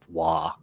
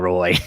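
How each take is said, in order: First: The name is said like 'wah', no final y-sound. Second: The name is said like 'roy', with a y-glide. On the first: The speaker calls it right. "it's Waugh" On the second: The speaker calls it wrong. "Quit saying Roy"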